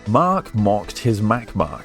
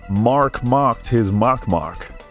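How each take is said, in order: First: It is said in a British accent. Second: It is said in an American accent.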